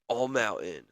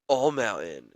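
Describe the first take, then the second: First: It is said in the speaker's ordinary voice. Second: It is said in a dramatic put-on announcer voice.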